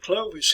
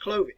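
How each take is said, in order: First: The name is said with an American pronunciation. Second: The name is said with a French pronunciation. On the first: "we pronounce it Clovis here" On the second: "in France you see hear it pronounced as Clovy"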